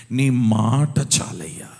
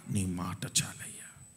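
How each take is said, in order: First: Loud, slow cry of prayer; cried-out prayer. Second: Whispered prayer. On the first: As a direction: cry it up to heaven. (గట్టిగా, నెమ్మదిగా మొరపెట్టడం) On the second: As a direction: drop to a whisper. Same prayer then whispered. (గుసగుసగా ప్రార్థన) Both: Acted.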